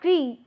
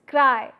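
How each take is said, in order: First: The vowel is a single plain 'ee' sound. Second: The vowel glides from 'ah' to 'ee'. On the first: The speaker calls it wrong. "it's not cree" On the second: The speaker calls it right. "there is involvement of a and e"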